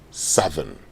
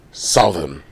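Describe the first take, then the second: First: "southern" with a short "u", SUTH-ern; correct pronunciation. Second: "southern" said like "south", SOW-thern; "southern" with the "ow" of "south", the way not to say it; wrong pronunciation. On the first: Host contrasting wrong and right: SUTH-ern. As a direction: say "southern" to rhyme with "sudden" before the -ern. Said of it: "but you say southern". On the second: Host contrasting wrong and right: SOW-thern. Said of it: "you don't say". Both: Shown as a demonstration.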